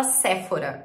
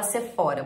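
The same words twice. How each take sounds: First: "Sephora" stressed on first syllable, "SÉ-fora"; Brazilian stress. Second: "Sephora" as "se-FÓ-ra"; alternative stress. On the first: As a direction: punch the SE in "Sephora". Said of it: "maioria das pessoas fala". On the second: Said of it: "tem lugar que fala". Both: Shown as a demonstration.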